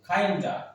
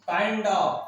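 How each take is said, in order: First: The words are blended into one short word. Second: Both words are said fully and separately.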